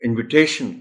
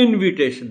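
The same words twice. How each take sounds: First: The stress is on the third syllable. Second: The stress is on the first syllable. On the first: The speaker calls it right. "हम invitation कहेंगे" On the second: The speaker calls it wrong. "शुरू की जो आय है उस पर stress नहीं हो सकता इनविटेशन नहीं कह सकते"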